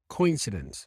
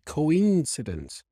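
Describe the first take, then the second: First: The stress is on the first syllable. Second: The stress is on the second syllable. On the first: The speaker calls it wrong. "she stressed it on the first syllable. She said coincidence" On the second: The speaker calls it right. "We say coincidence"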